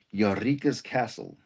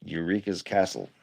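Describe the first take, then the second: First: "Eureka's" slowly as yah-REEK-uz; mispronounced Eureka's. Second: Said in the usual way. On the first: Shown as a demonstration. Streamer trying out a show's title, mispronouncing "Eureka's" as yah-REEK-uz. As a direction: stretch "Eureka's" with an open "yah" at the start. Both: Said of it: "I did that wrong".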